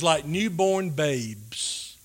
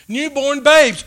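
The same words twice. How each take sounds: First: Slow quiet reading. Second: "Newborn babes" louder and higher, falling on "babes"; emphatic repeat. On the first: Preacher quoting Peter to the congregation, slow and hushed. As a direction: read "Like newborn babes" very slowly and softly. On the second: Preacher driving home Peter's words to the congregation, emphatic. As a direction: punch out "Newborn babes" with rising force. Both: Shown as a demonstration.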